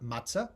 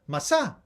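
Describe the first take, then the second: First: The middle consonant is a ts sound. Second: The middle consonant is a plain s sound. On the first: This is the modern Israeli pronunciation. "Not matzah" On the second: "That's how you say it, S. Masa, they used to say"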